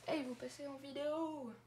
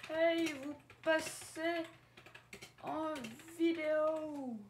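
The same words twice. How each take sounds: First: Said in the usual way. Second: High, slow sing-song hey to viewers; call-out greeting. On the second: Acted. Youtuber hailing viewers in a high drawn-out call. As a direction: stretch it out like a big hello.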